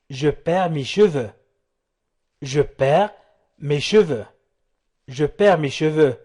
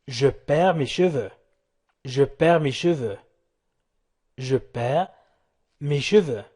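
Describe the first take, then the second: No difference in how they are said.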